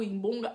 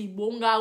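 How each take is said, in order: First: "Imbonga" with an m before the b; alternative pronunciation. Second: "Ibonga" with a plain opening I; uncertain pronunciation. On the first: Offering the other version, "Imbonga" with a nasal consonant added. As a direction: say "Imbonga", humming the m into the b. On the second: Unsure how the word goes, trying "Ibonga" with an oral I. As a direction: say "Ibonga" with no m before the b. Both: Shown as a demonstration. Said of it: "je ne sais même pas comment on prononce".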